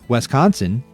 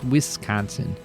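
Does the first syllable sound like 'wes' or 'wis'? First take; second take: wes; wis. First: The first syllable sounds like 'west'. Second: The first syllable sounds like 'wis'. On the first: The speaker calls it wrong. "see, I did it. It sounds like you're saying Westconsin" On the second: The speaker calls it right. "it's Wisconsin"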